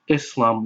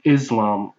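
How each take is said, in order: First: The middle consonant is a hissing s sound. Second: The middle consonant is a buzzing z sound. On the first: The speaker calls it right. "more accurately pronounced Islam with an S sound" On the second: The speaker calls it wrong. "rather than Islam with a Z sound"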